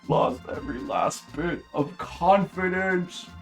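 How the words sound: It is read with the character's emotion.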